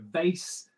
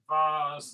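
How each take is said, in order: First: It is said with an American accent. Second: It is said with a British accent.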